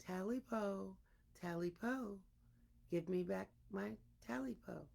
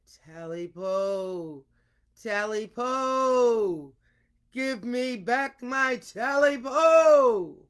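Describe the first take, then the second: First: Softly spoken, much softer; quiet version. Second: Slow, drawn-out, building to a loud shout; frightening booming call. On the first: Storyteller showing the ghost's call told another way, soft and hushed. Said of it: "It's all in the matter of your voice". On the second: Storyteller showing how to make the ghost's call frightening, slow building shout. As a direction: boom it out slowly like a ghost demanding its due. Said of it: "depends on the teller's voice for its frightening effect". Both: Shown as a demonstration.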